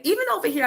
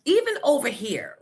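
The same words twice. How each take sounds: First: "Even" pitched high and punched; strong stress on Even. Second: "even" stressed with a falling tune. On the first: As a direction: hit "Even" hard and high. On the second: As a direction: lean on "even". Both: Real, not acted.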